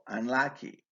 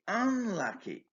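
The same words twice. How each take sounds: First: The stress is on the second syllable. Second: The stress is on the first syllable. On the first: "usually takes the main stress on its second syllable" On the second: "But the first syllable is stressed in B's response"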